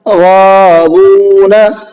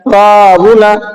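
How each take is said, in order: First: Both long vowels are held long. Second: The second vowel is cut short. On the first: The speaker calls it right. "ये ठीक है।" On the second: The speaker calls it wrong. "वाव नहीं खिंचा।"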